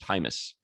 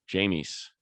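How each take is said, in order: First: The name begins with an H sound. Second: The name begins with a J sound. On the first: The speaker calls it right. "it's actually pronounced Hymus" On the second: The speaker calls it wrong. "I say James"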